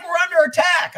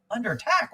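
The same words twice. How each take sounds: First: High, loud mock alarm; retold urgent shout; alarmed caller. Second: Questioning repeat, rising at the end; retold baffled question; puzzled echo. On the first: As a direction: raise the alarm, voice pitched way up. Caller breaks alarming news to him. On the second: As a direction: echo it back in disbelief, without shouting. His puzzled reply to the caller.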